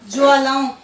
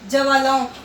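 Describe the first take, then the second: First: The first two consonants are joined without a vowel. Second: The first consonant gets its own vowel sound. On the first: The speaker calls it right. "इसमें आएगा ज्वालाओं" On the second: The speaker calls it wrong. "पर ये wrong होगा"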